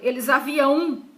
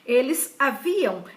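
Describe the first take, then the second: First: The last syllable is stressed, like 'limão'. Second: The last syllable is unstressed, stress on 'vi'. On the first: The speaker calls it wrong. "se botar a O tio... Como limão, campeão" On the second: The speaker calls it right. "é A M"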